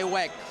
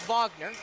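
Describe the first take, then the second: First: The name is said the English way. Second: The name is said the German way. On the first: The person is not assumed to be German. "I'm not gonna take the leap that he's German, so we're gonna say Wagner" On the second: The person is assumed to be of German descent. "if it is German, it is Wagner"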